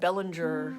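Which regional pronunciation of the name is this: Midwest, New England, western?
western. The name is said the far-western way. "further over"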